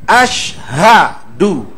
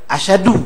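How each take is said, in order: First: The h sound is clearly pronounced. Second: The h sound is dropped. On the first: The speaker calls it right. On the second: The speaker calls it wrong. "ha banyak dibuang oleh kita"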